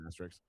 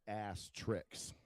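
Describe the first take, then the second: First: The word is said as plain 'asterisk'. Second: The word is said as 'ass tricks'.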